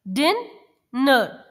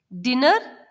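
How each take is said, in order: First: dinner broken in two, डिन, long pause, नर; split into syllables. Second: Said in the usual way. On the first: Shown as a demonstration. Teacher showing children two syllables, dinner split by a pause. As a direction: say dinner as two slow, separate beats. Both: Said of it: "दो दो sounds आती हैं".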